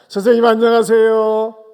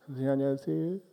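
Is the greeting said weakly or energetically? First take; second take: energetically; weakly. First: It is said in a lively, energetic voice. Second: It is said in a weak, dying voice.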